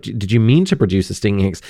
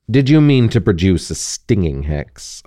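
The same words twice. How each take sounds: First: Fast offhand Snape quote; quick retold Snape line. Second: Understated cool Snape question. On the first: Host recalling Snape's question to Harry, fast and offhand. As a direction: rattle off the question. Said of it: "when Snape says". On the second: Acted. Snape questioning Harry after the hex, cool and even. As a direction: ask it evenly, unbothered. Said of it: "asked Snape coolly".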